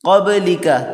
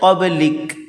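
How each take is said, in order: First: The word ends with a final short vowel. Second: The word ends on a consonant, vowel dropped. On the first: The reading continues into the next words. "अगर हम मिलाकर पढ़ते हैं तो इस तरह पढ़ेंगे" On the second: The reader stops after this word. "वक़फ़ की हालत में"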